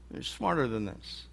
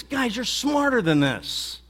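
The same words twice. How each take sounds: First: Dropped to a soft, disappointed echo; quieter. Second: Higher, slow, exasperated appeal; frustrated. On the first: Jesus repeating it softly to his disciples, disappointed. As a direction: let it fall away, almost to yourself. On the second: Jesus telling his disciples they know better, exasperated. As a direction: drag it out, fed up but pleading. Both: Acted. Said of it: "in a sort of a frustrating way".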